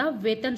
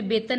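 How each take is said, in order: First: वेतन with a v, "vetan"; correct initial consonant. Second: वेतन with a b, "betan"; wrong initial consonant. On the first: Teacher giving the pure word, वेतन with a v. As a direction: say वेतन as "vetan", not "betan". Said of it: "वेतन शुद्ध शब्द होता है". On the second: Teacher showing what is wrong, वेतन as "betan". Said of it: "इसमें वेतन नहीं होता". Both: Shown as a demonstration.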